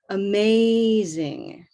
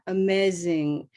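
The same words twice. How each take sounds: First: The stressed vowel glides and is drawn out. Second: The stressed vowel stays flat and short. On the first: The speaker calls it right. "you want to move that vowel sound" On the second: The speaker calls it wrong. "what if you don't move?"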